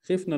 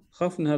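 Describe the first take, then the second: First: "خفنا" as khifna, with short "i"; past form, kasra. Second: "خفنا" as khafna, with short "a"; imperative form, fatha. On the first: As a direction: close the first vowel of "خفنا": khifna. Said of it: "الماضي". («خفنا» بكسر الخاء للماضي) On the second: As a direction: open the first vowel of "خفنا": khafna. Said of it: "هذا الأمر". («خفنا» بفتح الخاء للأمر) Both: Shown as a demonstration.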